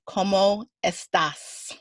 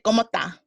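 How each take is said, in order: First: The final s sound is clearly pronounced. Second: The final s sound is dropped. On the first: This is how speakers in a conservative Mexican city talk. "they pronounce every letter" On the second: This is how Caribbean Spanish speakers talk. "we chop up the words"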